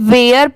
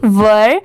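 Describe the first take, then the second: First: The vowel sounds like 'air'. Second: The vowel sounds like 'er'. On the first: The speaker calls it wrong. "बहुत सारे लोग इसे वेयर पढ़ते हैं, but वो wrong होता है" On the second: The speaker calls it right. "इसकी प्रोनाउंसिएशन है वर"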